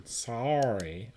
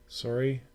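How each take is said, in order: First: Drawn-out Canadian "Sorry". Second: Said in the usual way. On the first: Shown as a demonstration. Streamer correcting the apology as a Canadian, drawn-out Canadian accent. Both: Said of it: "Wait, I'm Canadian".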